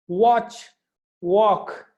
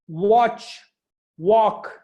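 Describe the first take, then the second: The two takes are said the same way.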